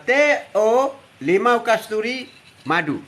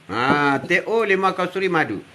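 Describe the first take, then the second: First: Each word drawn out slowly; slow drink name. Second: Said in the usual way. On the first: Shown as a demonstration. Grandpa on live stream naming his drink, slowly and deliberately. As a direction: spell out the drink slowly for the viewers. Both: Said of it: "Hari ni minum".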